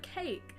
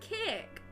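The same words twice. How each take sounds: First: The word is said in a plain usual accent. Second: The word is said in an odd regional accent. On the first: This is the normal way to say it. "instead of cake" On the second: Someone else says it this way. "He says cake as well"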